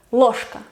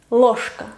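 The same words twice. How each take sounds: The two takes are said the same way.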